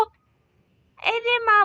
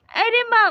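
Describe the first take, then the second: First: अरे माँ stretched very slowly, whining, higher; drawn-out whine. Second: Said in the usual way. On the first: Acted. Hurt daughter complaining to her laughing mother, slow whining wail.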